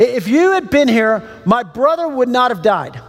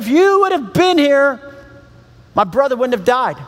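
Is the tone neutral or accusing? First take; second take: neutral; accusing. First: It is read in a plain, neutral tone. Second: It is said with an accusing, upset tone.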